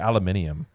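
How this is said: It is said with five syllables, alu-mi-ni-um.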